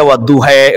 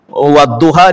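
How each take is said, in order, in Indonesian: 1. Kata ini berakhir dengan vokal 'e'. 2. Kata ini berakhir dengan vokal 'a' terbuka.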